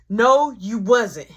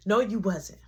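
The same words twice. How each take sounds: First: Louder, slow insistent denial; slow, louder flat denial. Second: Said in the usual way. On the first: Retold or imitated. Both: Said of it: "now y'all think I'm crazy".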